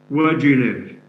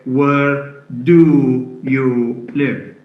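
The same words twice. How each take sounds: First: The word do has a weak schwa vowel. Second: The word do has a full oo vowel. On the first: The speaker calls it right. "That's a, a schwa, not an oo sound" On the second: The speaker calls it wrong. "So we don't say"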